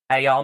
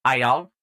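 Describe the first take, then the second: First: A louder, fuller Southern hey y'all; louder southern accent. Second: A friendly southern hey y'all; southern accent. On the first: Trying the Southern accent again, bigger, louder southern greeting. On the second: Trying out a Southern accent for a new character, a southern greeting. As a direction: greet them with a light Southern drawl. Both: Shown as a demonstration. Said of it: "a southern accent".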